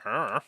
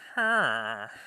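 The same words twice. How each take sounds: First: The grunt has a plain, ordinary villager inflection. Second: The grunt has an exaggerated, lilting pitch inflection. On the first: "regular villagers are like"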